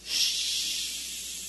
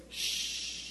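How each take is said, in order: First: Stronger shushing shh; louder shush. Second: Soft hushing shh; congregation shushing. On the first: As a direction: hush them a bit harder. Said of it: "a little bit louder". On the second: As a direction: hush someone gently. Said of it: "use your finger up against your lips and say". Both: Real, not acted.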